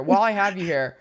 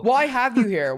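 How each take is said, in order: First: Said in the usual way. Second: Raised restart. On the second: Real, not acted. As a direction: jump in with while I have you here pitched up.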